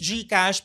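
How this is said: It is said with a Filipino accent. This is how it is said in the Philippines. "Pag nasa Philippines"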